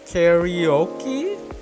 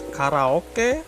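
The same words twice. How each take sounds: First: The word is pronounced with English-style sounds. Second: The word is pronounced with Japanese-style sounds. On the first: The speaker calls it wrong. "They pronounce it karaoke, but it's completely false" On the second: The speaker calls it right. "It's karaoke, means karai karapo is empty, oke is orchestra"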